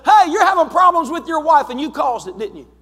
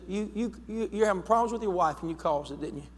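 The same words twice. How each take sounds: First: High and loud, blurting it out boldly; bold accusation. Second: Softer, stammering the words out; hesitant retelling. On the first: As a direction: confront the stranger head-on, loud and sure. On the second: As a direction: stumble into it quietly, as if unsure. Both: Retold or imitated. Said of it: "But there was a boldness".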